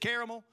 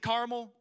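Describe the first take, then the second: First: It is said with a South Carolina pronunciation. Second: It is said the way local listeners say it. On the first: This is how people from South Carolina say it. "I'm from South Carolina, so we say caramel" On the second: This is how people here say it. "Here you probably say caramel"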